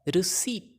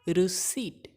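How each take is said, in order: The two takes are said the same way.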